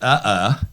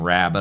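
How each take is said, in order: First: The word is garbled beyond recognition. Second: The word is pronounced clearly and normally. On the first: The speaker calls it wrong. "because my speech is so impaired, then you can't understand what I say" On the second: The speaker calls it right. "instead of saying rabbit"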